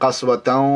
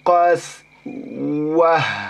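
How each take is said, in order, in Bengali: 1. শব্দটি নাসিক্য tan দিয়ে শেষ হয় এবং তারপর চলতে থাকে। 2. শব্দটি একটি নরম h ধ্বনিতে থামে। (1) "কাসওয়াতাও ওয়া ইন্না এরকম যেতে হবে" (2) "আর যদি তার উপরে আমরা থামি তাহলে এটা হা হয়ে যাবে"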